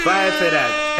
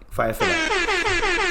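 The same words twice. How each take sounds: First: Louder, normal pitch, cut short; louder punchy repeat. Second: Chanted, much higher and very slow; chanted, stretch it out like a rallying cry; high drawn-out chant. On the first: Host repeating the rallying cry louder and firmer. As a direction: bark it back as a firm slogan. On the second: Host hyping the joke with a stretched-out high chant. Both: Pretend.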